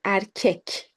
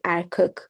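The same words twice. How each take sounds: First: "erkek" with a front e in both syllables; correct pronunciation. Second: "erkek" with a back, rounded second vowel, like er-kok; mispronounced "erkek", vowels not matching; wrong pronunciation. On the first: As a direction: say "erkek" as er-KEK, clear e before the final k. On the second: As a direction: spoil the second e of "erkek" into an o sound. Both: Shown as a demonstration. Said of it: "We don't say erkek".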